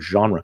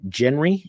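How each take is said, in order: First: It is pronounced close to the French way. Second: It is pronounced the way English spelling suggests. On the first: "pretty close to the French pronunciation of the word genre" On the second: "like it looks like in English it might be genre"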